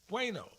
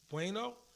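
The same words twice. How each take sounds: First: It is said as a plain statement. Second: It is said as a question.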